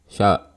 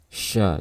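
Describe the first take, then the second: First: The sh sound is cut short before the vowel. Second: The sh sound flows audibly before the vowel. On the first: The speaker calls it wrong. "shinnya akan tidak terdengar dengan jelas" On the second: The speaker calls it right. "pastikan ada suara shin yang mengalir"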